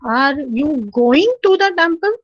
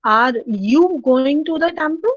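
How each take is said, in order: First: Going lifted and stretched, slow phrase; slow question with weight on going; stress on going. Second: You pushed up and held long, slow phrase; slow question with weight on you; stress on you. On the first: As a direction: lean on going, as in when are you going. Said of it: "तो यहाँ पे हम going पे emphasis कर रहे हैं". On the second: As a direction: lean on the word you as if asking if it's really them. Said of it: "यानी हम you पे, अ, फोकस कर रहे हैं". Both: Shown as a demonstration.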